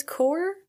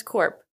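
First: "core" with no P, rising in question; silent final P. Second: "corp" with the P pronounced at the end; sounded final P. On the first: Vlogger asking viewers, "core" with silent P. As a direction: lift "core" high, ending open on the R. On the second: Vlogger asking viewers, "corp" with its P sounded. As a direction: finish "corp" on an audible P. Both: Shown as a demonstration. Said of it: "I never know if it's".

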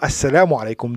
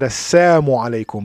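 First: Said in the usual way. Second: Assalamu alaikum said as assamu alaikum, the la dropped; twisted greeting. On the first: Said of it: "what they said was not". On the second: Retold or imitated. Showing how the men twisted the greeting into a curse. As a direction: slur Assalamu alaikum into assamu alaikum, death instead of peace. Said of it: "meaning, May curse and death".

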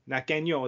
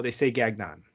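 First: Gagnon said the French way, gan-yo, nasal ending; French Gagnon, no hard g, nasal close; French pronunciation. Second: Gagnon said English style, gag-non, hard g; English pronunciation. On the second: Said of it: "my last name's pronounced Gagnon". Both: Shown as a demonstration.

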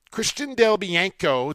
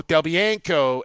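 First: Said in the usual way. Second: Del Bianco said slowly, each syllable clear, falling at the end; careful name repeat. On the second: Shown as a demonstration. Host repeating the goalie's name to his co-host, slow and careful. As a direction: spell out Del Bianco by ear, unhurried.

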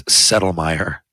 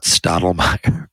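First: Settlemyre said with "Settle" at the start; correct pronunciation. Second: Stottlemyre said with "Stottle" at the start; wrong pronunciation. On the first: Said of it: "it's Settlemyre, not Stottlemyre". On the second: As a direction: say Stottlemyre, the old mistaken way. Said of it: "not Stottlemyre". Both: Shown as a demonstration.

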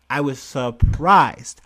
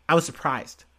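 First: I was surprised, louder and drawn out slowly; slow emphatic repeat. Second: Said in the usual way. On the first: Shown as a demonstration. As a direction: lean hard on WAS, slowly.

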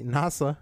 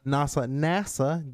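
First: Put-on nasa with a German-Russian accent. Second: Nasa, nasa slowly with a German lilt; drawn-out German-accented nasa. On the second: Pretend. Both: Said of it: "my Russian German accent coming out".

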